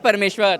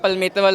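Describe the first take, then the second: First: The name is said clearly, without a lisp. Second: The name is said with a childish lisp. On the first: The speaker calls it right. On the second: The speaker calls it wrong.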